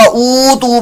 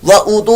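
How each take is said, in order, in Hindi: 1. पहला स्वर लंबा खींचा जाता है। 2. पहला स्वर छोटा रखा जाता है।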